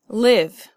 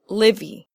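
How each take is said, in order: First: It is one syllable ending in a v sound. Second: It has an extra vowel syllable after the v. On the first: The speaker calls it right. "the E is silent" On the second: The speaker calls it wrong. "It's not livy"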